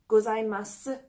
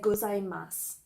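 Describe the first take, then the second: First: The final vowel sound is clearly pronounced. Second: The final vowel sound is dropped. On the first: "some people pronounce the extra sound at the end of gozaimasu" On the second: "while others do not, and they'll say gozaimasu"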